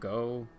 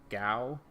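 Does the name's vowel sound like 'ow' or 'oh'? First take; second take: oh; ow. First: The vowel sounds like 'oh' in go. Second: The vowel sounds like 'ow' in cow. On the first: This is how some other people say it. "Some people pronounce it Go" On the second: This is how the speaker has always said it. "I always pronounced it Gao"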